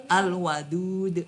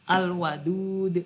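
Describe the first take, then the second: No difference in how they are said.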